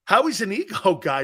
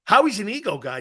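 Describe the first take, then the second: First: "Howie's an ego guy" said with a laugh midway. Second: Said in the usual way. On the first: Real, not acted.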